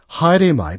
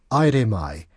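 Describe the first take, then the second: First: The phrase begins with an 'h' sound. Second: The phrase begins directly with a vowel.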